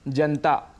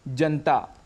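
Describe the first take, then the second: First: The vowel after the n is dropped. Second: The vowel after the n is dropped.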